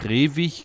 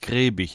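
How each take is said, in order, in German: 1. Der mittlere Konsonant ist ein w-Laut. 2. Der mittlere Konsonant ist ein b-Laut. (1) "einmal geschrieben Gräwig mit W wie Wilhelm" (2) "einmal geschrieben Gräbig mit B wie Bertha"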